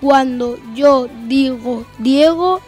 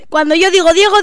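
First: The phrase is spoken at a slow pace. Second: The phrase is spoken at a fast pace. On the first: "Velocidad lenta" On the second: "Velocidad rápida. La más rápida"

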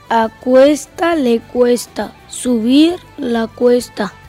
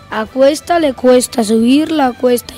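First: The sentence is spoken at a slow pace. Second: The sentence is spoken at a normal pace. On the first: "Con la velocidad lenta" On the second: "Velocidad normal"

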